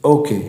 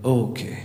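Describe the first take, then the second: First: Said in the usual way. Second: Soft whisper. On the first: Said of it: "he whispered". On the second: Shown as a demonstration. Teacher shows the class the prisoner's soft reply, whispered. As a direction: breathe "Okay" out quietly. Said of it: "he whispered, धीरे से".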